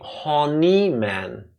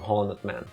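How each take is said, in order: First: The name is said with a French pronunciation. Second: The name is said with an English pronunciation. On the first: "if you pronounce it Frenchly" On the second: "only us speaking English calling him"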